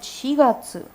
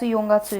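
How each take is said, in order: First: The first syllable is 'shi'. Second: The first syllable is 'yon'. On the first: The speaker calls it right. "you will call it Shigatsu" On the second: The speaker calls it wrong. "Yongatsu is wrong"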